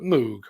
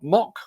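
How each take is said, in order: First: The name is said with a long 'oo' vowel. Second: The name is said with a short 'o' vowel. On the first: The speaker calls it right. "Not Mock, but Moog" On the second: The speaker calls it wrong. "Reg's pronunciation was a little bit squiffy there"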